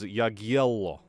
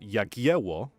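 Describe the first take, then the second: First: The middle consonant sounds like a dark l. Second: The middle consonant sounds like an English w. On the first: This is the older historical pronunciation. "instead, you would have said it as" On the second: This is the modern pronunciation. "which is how we now say it"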